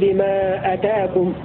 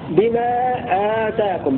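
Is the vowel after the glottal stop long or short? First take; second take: short; long. First: The vowel after the glottal stop is short. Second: The vowel after the glottal stop is lengthened. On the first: What came to you. "بفصل الهمزة وبحذف الألف" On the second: What was given to you. "بألف بعد الهمزة"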